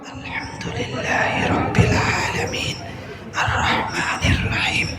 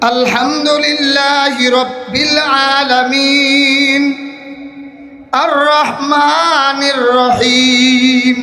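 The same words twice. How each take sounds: First: It is recited quietly, just barely audible. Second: It is recited loudly, at full voice. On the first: "নিজের কানে যেন নিজে শোনা যায়" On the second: "কেরাত পড়েন জুরে"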